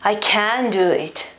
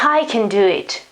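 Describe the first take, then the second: First: The modal verb 'can' carries the stress. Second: The modal verb 'can' is left unstressed. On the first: The speaker is unable to do it. "the accent is here, okay, on the modal verb" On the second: The speaker is able to do it. "The accent is before, it's not on the on the on the on the modal verb"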